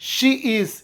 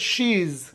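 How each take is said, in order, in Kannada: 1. ಎರಡು ಪ್ರತ್ಯೇಕ ಪದಗಳನ್ನು ಪೂರ್ಣವಾಗಿ ಹೇಳಲಾಗುತ್ತದೆ. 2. ಪದಗಳನ್ನು ಒಂದೇ ಪದವಾಗಿ ಸೇರಿಸಿ ಹೇಳಲಾಗುತ್ತದೆ.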